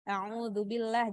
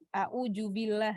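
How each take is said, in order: First: It is said with standard Arabic sounds. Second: It is said with a local sound substitution.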